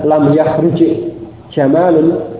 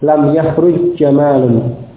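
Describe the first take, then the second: First: The two j sounds are pronounced separately. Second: The two j sounds merge into one doubled sound. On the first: The speaker calls it wrong. "bukan lam yahruj jamalun" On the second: The speaker calls it right. "tapi diidghamkan pada jim yang fathah yang sesudahnya"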